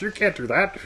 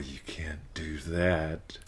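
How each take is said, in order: First: It is said in a Mickey Mouse voice. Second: It is said in a normal critical voice.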